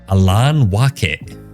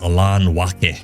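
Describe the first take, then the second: First: The name is given a fancy, foreign-sounding pronunciation. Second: The name is given a plain, ordinary pronunciation. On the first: "I've been pronouncing it that way through most of today" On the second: "it's Alan Wake"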